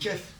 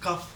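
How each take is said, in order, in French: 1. La voyelle est un son e fermé. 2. La voyelle est un son a ouvert. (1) "On dit Kef" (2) "est-ce qu'on dit Kaf?"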